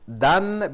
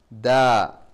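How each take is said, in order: First: The syllable ends with an n sound. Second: The syllable ends on a plain vowel. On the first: The reading continues without a stop. "this dan becomes da" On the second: The reader stops on this word. "So when we stop, this dan becomes da"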